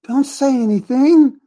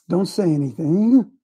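First: "Don't say anything." said higher, louder and slower; "Don't say anything" pressed home the second time; louder, emphatic repeat. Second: Said in the usual way. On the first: Real, not acted.

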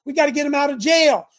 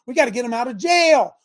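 No difference in how they are said.

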